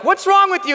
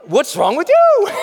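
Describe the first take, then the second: First: Higher and louder, an incredulous jab; mock accusing shout. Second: Higher, louder, slower, with laughter; laughing comeback. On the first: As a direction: call him out like he's gone crazy. People react to your fire. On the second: Retold or imitated. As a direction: fire it back, amused and defiant. You answer them back laughing.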